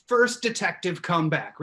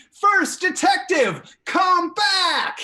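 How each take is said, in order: First: Said in the usual way. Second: High, drawn-out shouted summons; full yell. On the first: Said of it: "everybody at their houses to yell". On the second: Real, not acted. Host calling the detective back with viewers, full yell. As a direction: yell it loud and slow, high in pitch. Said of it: "to yell with me".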